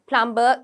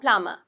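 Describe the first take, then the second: First: The B sound is clearly pronounced. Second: The B sound is silent. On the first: The speaker calls it wrong. "We don't say the B uh, quite prominently. Plumber, කියලා කියන්න එපා" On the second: The speaker calls it right. "it's very silent kind of B"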